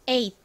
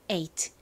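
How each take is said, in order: First: The final t is swallowed and quick. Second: The final t is clearly released.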